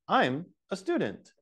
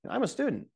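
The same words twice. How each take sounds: First: It is said with small gaps between the words. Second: It is said quickly, with the words run together. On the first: "there's a slight separation" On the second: "native level"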